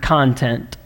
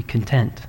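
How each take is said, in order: First: "content" said as CON-tent, stress on the first syllable like the noun. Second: "content" said as con-TENT, stress on the second syllable like satisfied; adjective content. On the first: Pastor shows the congregation one reading: "content" with stress on CON. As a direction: stress the front of "content", as in things to read. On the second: Pastor shows the other reading: "content" with stress on TENT. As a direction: lean on the end of "content", as in being at peace. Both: Shown as a demonstration. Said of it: "Spelled the same, but they are not the same word".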